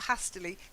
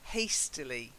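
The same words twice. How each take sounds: First: The first syllable does not sound like haste. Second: The first syllable sounds like haste. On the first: The speaker calls it wrong. "not hastily" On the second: The speaker calls it right. "it comes from hasty, like pastry"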